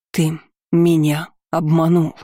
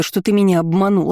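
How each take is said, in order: First: "меня" stressed, slow and deliberate; slow repeated accusation. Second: Rising fury on "обманул"; angry accusation. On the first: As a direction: repeat it slowly, leaning on "меня". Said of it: "повторила Диана". (медленно, с нажимом на «меня») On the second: Quarrel, accusing him. (гневно, с ударением на «ты») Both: Acted.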